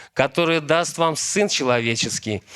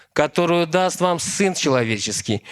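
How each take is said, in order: Both takes have the same delivery.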